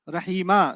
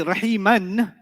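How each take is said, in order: First: The word ends with a long vowel. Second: The word ends with an n sound. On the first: The speaker stops at the end of the verse. "if you were to stop there, ... you would say Rahima" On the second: The speaker keeps reading past the word. "So you say Rahiman"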